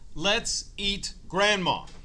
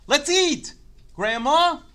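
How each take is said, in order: First: It runs straight on with no pause before grandma. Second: There is a short pause before grandma. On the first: Grandma is the one to be eaten. The speaker calls it wrong. "if you just say it like that" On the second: Grandma is being called to come and eat. The speaker calls it right. "put a teeny tiny little mark"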